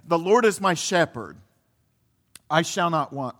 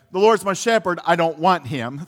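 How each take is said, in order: First: Said in the usual way. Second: Lightly voiced kid's misreading of the psalm; mock child mishearing. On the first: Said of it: "But no, it's". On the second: Pastor recalling his childhood mishearing, lightly mock-childish. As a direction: say it like a little kid who got it wrong. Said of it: "That's what I thought he said when I was a little kid".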